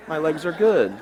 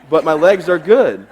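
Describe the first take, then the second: First: Said in the usual way. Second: Good stretched slow and loud; emphatic. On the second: Shown as a demonstration. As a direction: lean on "good" slowly.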